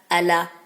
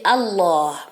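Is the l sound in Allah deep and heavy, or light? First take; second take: light; deep. First: The l sound is light and thin. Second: The l sound is deep and heavy. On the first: The speaker calls it wrong. "On dit pas" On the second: The speaker calls it right. "il est emphatique. Ça veut dire qu'il est grave"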